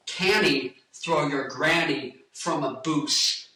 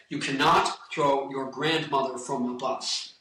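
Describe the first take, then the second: First: Slow, spelled-out Scottish accent. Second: Said in the usual way. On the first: Shown as a demonstration. Showing how relatives in Scotland say it, slow Scottish accent. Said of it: "when I went to Scotland". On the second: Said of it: "Turns into".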